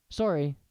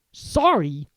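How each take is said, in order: First: Said in the usual way. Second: Loud incredulous bark. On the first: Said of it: "Harry said quickly". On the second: Acted. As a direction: bark it back in disbelief. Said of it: "barked Hagrid".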